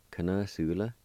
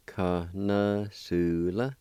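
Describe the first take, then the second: First: Said in the usual way. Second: Connoisseur drawn out very slowly as kanasula, rising at the end; very slow model of Connoisseur; slow teaching pronunciation. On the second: Shown as a demonstration. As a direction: stretch Connoisseur out for learners. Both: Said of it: "And it's pronounced like this".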